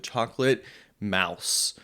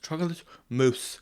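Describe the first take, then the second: First: The last word rhymes with house. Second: The last word rhymes with moose. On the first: The speaker calls it wrong. "I don't know how to pronounce that word" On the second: The speaker calls it right. "it's pronounced chocolate mousse"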